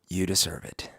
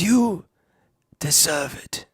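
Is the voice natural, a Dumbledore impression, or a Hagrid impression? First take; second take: natural; Dumbledore. First: It is said in the speaker's natural voice. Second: It is said in a put-on Dumbledore voice.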